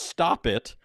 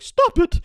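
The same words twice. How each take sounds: First: It is said in an ordinary speaking voice. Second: It is said in a put-on, unmasculine voice.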